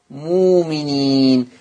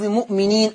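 First: "مؤمنين" as moo-mineen, slow, no glottal stop; hamza turned to waw. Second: "مؤمنين" with a glottal stop after the short mu; written hamza form. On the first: Teacher showing how Warsh reads it, long smooth vowel. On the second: Teacher citing the last word before its Warsh reading, hamza pronounced. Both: Shown as a demonstration. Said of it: "تقرأ مؤمنين".

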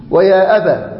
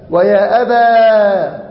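First: Said in the usual way. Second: ويا أبا drawn out, with the final a of أبا held long; slow demo of ويا أبا. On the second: Shown as a demonstration. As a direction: stretch ويا أبا slowly for the class. (نطق ويا أبا ببطء مع مد الألف في أبا) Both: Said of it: "تقول".

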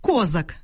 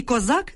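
First: Козак with stress on the first syllable, КОзак; Козак stressed up front, the wrong surname way. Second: Козак with stress on the last syllable, коЗАК; козак stressed at the end, as the common noun; correct noun stress. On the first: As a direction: say Козак as КО-зак, falling. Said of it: "Перетягувати наголос у прізвищі не можна". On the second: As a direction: say козак as ко-ЗАК, rising. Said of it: "загальна назва". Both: Shown as a demonstration.

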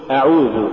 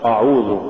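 First: Said in the usual way. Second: أعوذ with a dark, backed opening أ; wrongly heavy hamza. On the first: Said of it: "قل". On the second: Shown as a demonstration. Teacher warning against an error, heavy أ in أعوذ. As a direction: thicken the first vowel of أعوذ. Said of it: "اللحن بتفخيم الحروف المرققة".

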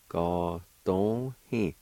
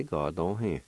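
First: Ga dong hi said slowly with every syllable clear; slow demo. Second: Said in the usual way. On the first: Shown as a demonstration. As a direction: drag out Ga dong hi so learners can follow.

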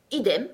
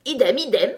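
First: Said in the usual way. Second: Loud, higher repeated cry; shouted echo. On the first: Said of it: "répondit Bonnet Blanc". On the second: A narrator's reading. Tweedledee noisily echoing his brother, shouting. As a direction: cry out both words loudly. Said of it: "cria Blanc-Bonnet".

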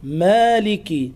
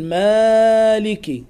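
First: "مالك" with a moderate long a and final i; natural madd. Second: "مالك" with a louder, greatly stretched a; overlong madd. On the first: Teacher gives the correct form, measured a in "مالك". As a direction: hold the a of "مالك" just two counts. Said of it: "هذا مد طبيعي". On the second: Teacher shows what to avoid, overstretched a in "مالك". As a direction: drag out the a of "مالك" too far. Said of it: "لا تقل". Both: Shown as a demonstration.

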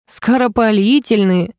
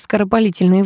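First: Скоропалительные drawn out slowly, rising in disbelief; mocking echo. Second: Said in the usual way. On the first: A narrator's reading. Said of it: "расхохотался Ярослав".

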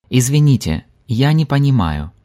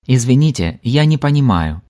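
Both takes have the same delivery.

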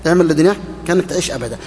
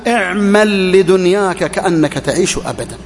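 First: Quick, offhand repeat. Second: Slow weighty recital of the saying; slow, deliberate quote. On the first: Preacher mocking how glibly people recite it, fast and light. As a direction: toss it off fast like a line everyone knows by heart. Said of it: "يحفظونها كما نحفظها". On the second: Preacher citing the saying to the congregation, slow and weighty. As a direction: lay out اعمل لدنياك كأنك تعيش أبدًا slowly, word by word. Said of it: "البعض يحفظون". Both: Shown as a demonstration.

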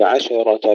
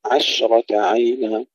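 First: عشرة with a vowel after sh, "ashera"; wrongly bounced shin. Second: عشرة as "ash-rata", sh hissed with no vowel; still, spreading shin. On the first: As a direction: mistaken recitation of عشرة, echoing the ش. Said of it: "لا نقول". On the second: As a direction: let the ش in عشرة flow straight into r. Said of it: "تسكين الشين". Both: Shown as a demonstration.

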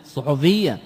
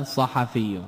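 First: الصحفية said suḥufiyya with two dammas; الصحفية pronounced suḥufiyya. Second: صحفي said ṣaḥafī with two fathas; صحفي pronounced ṣaḥafī. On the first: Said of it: "بضمتين". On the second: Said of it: "مفرده صحيفة فعيلة". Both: Shown as a demonstration.

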